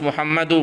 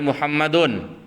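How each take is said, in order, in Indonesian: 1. Kata ini berakhir dengan vokal biasa. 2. Kata ini berakhir dengan bunyi n. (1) "Harus Muhammadu mabniyun 'ala dhammi" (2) "enggak boleh Muhammadun"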